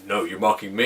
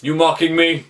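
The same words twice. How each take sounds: First: Low, put-on copycat voice; Peter Quill's mimicking voice. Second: Lightly acted challenge, in natural pitch; Thor. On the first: Star-Lord turning Thor's question back, deliberately lowered voice. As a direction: throw it back in a forced deeper pitch. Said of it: "putting on a deeper voice to match his". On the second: Thor confronting the man copying him, lightly acted challenge. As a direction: ask it as a short, suspicious challenge. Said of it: "And then Thor's like".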